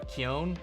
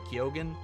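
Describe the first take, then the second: First: The name is said without a G sound. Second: The name is said with a G sound. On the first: The traditional Gaelic way to say the name. "Keown is what he said" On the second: The way the name's owner says it himself. "except he pronounces the G, so Keoghan"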